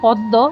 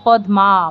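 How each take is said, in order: First: The m sound is dropped, doubling the d. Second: The m sound is clearly pronounced after d. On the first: This is the everyday Bengali way of saying it. "আমরা বাংলায় বলি" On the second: This is the pure Sanskrit way of saying it. "পুরো উচ্চারণটি করতে হবে, ময়ের উচ্চারণটা আনতে হবে"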